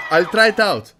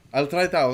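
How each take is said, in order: First: A sudden loud shout of "I'll try it out". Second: Said in the usual way. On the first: Shown as a demonstration. Host testing a viewer's suggested opener, shouting "I'll try it out". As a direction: belt "I'll try it out" out like a test take.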